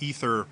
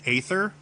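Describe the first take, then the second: First: The opening A is silent, just like ether. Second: The opening A is sounded before the th. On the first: The speaker calls it right. "I believe that's actually the correct correct pronunciation" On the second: The speaker calls it wrong. "I pronounce this Aether"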